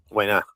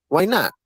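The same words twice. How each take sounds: First: Said in the usual way. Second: Pitched up higher, pressing the point; higher, insistent. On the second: Real, not acted. Daring the guest it could go viral, pitched higher. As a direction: push it up high like a challenge.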